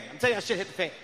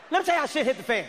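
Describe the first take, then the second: First: Said in the usual way. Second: "Let me tell you" launched high, falling away; high-pitched announcement. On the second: Shown as a demonstration. Announces story, high first take.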